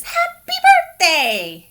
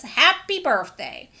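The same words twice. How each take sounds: First: High, laughing "Happy birthday"; laughing quote. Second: Said in the usual way. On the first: Acted. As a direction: sing out a birthday wish through a laugh. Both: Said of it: "He says".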